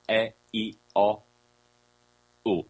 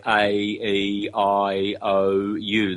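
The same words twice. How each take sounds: First: A, E, I, O, U as pure single vowels, no glide; A, E, I, O, U clipped clean like Spanish or Italian; A, E, I, O, U held pure and steady. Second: A, E, I, O, U as English letter names, A said like "ay"; A, E, I, O, U said as English alphabet names. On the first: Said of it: "The true vowels are". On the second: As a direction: spell out A, E, I, O, U the English way, each letter a glide. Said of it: "in the very unphonetic English way". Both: Shown as a demonstration.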